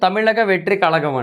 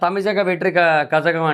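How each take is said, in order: First: The name is said with 'l' sounds. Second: The name is said with 'zh' sounds. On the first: The speaker calls it right. "కాకపోతే ... అంటది" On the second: The speaker calls it wrong. "అంటాను నేను"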